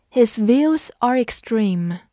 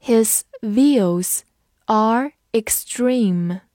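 First: Said in the usual way. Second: Slow, word by word; measured words with pauses between; slow read-along. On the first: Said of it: "慢读一遍". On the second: Shown as a demonstration. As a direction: model it slowly for learners. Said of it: "跟着我慢读一遍".

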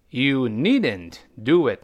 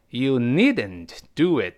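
First: YOU NEEDN'T DO IT drawn out word by word; unhurried, spaced-out teaching repeat; slow model reading. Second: Said in the usual way. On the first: Shown as a demonstration. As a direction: read the example slowly for learners. Teacher repeats example slowly.

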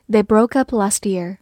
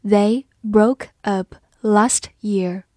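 First: Said in the usual way. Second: Slow and hushed, word by word; slow reading. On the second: Shown as a demonstration. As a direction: read it slowly for learners. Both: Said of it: "好，我们慢读一遍".

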